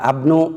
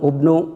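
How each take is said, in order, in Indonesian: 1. Kata ini diawali dengan vokal a. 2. Kata ini diawali dengan vokal u. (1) "Tidak abnu"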